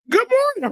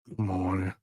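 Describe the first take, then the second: First: The greeting sounds loud and overly cheerful. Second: The greeting sounds flat and curt.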